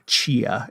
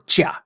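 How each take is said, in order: First: The name is said softly and lightly. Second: The name is said with forceful, crisp enunciation.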